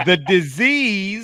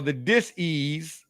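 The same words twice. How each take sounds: First: Disease, said slowly as one word, "di-ZEEZ"; "disease" drawn out as one smooth word; disease, said normally. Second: "dis-ease" split as "dis" plus "ease", said slowly; "dis-ease" with a clear break after "dis"; dis-ease, split in two. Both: Shown as a demonstration. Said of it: "or the dis-ease".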